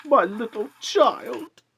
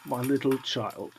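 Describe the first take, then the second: First: High, loud, slow cry of grief; a father breaking down over his dead son. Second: Softly, almost to himself; a father quietly grieving his child; quiet grief. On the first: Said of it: "He broke down all at once". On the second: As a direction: murmur it as grief rises. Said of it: "cried Bob". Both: A narrator's reading.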